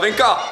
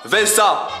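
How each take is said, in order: First: The middle consonant is a k sound. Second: The middle consonant is an s sound. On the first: The speaker calls it wrong. "ne dis pas Vinca" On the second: The speaker calls it right. "tu la vois la cédille?"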